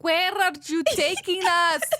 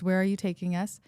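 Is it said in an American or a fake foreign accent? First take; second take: fake foreign; American. First: It is said in a put-on, Russian-sounding accent. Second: It is said in her plain American accent.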